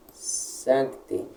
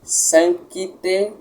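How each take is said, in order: First: "Sancte" with a soft, almost silent c, calm and unforced; correct Latin Sancte. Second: "Sancte" with the c pushed hard, as an extra syllable "sankite"; wrong forced Sancte. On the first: Teacher showing students the right "Sancte", soft almost mute c. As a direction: say "Sancte" gently, barely touching the c. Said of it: "não forçadamente, nem rapidamente demasiado". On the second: Teacher mocking a wrong reading for students, "Sancte" with a forced c. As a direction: overstress the c in "Sancte" on purpose. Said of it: "não é assim". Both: Shown as a demonstration.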